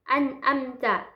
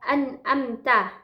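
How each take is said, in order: No difference in how they are said.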